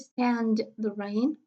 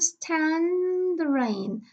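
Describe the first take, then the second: First: The d sound is fully pronounced. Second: The d sound is dropped. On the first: The speaker calls it wrong. "I don't say stand the rain" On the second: The speaker calls it right. "here we have I can't stand the rain"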